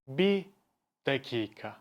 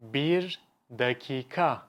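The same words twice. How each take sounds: First: The r of bir is dropped. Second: The r of bir is pronounced. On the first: "We just say" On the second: "We don't say"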